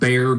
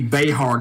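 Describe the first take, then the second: First: It sounds exactly like the animal 'bear'. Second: It does not sound like the animal 'bear'. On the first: This is how the name is actually said. "it is pronounced Bear County, like the animal" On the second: This is how the speaker thinks it should be said. "It should be Behar County"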